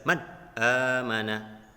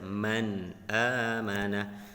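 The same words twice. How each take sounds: First: The sounds are over-articulated with exaggerated force. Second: The sounds are clear but said in a relaxed way. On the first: The speaker calls it wrong. "tidak boleh terlalu jelas" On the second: The speaker calls it right. "santai saja"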